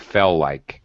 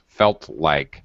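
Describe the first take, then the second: First: The T at the end of felt is dropped. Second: The T at the end of felt is pronounced. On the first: The speaker calls it wrong. "you lost the T, so it sounded like fell like" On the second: The speaker calls it right. "you have to be very careful about pronouncing the ends of words"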